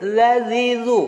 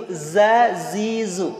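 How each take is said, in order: First: Slow "Lazizu" with the z softened toward a th sound; teacher showing the wrong way to say the letter. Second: Very slow "Zazizu" with a clear buzzing z; teacher showing the right way to say the letter; correct z sound. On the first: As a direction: say "Lazizu" slowly with a lisped z. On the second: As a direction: buzz each z in "Zazizu" slowly. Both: Shown as a demonstration. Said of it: "Beda kan?".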